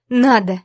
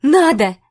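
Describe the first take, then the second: First: Loud firm "Надо!" said again; insist, hammering it home; a loud flat repeat; repeating firmly. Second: Sharp loud "Надо!"; loud defiant cry; exclaiming. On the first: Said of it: "повторила я". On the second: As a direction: fling the word back at him. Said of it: "воскликнула я". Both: A narrator's reading.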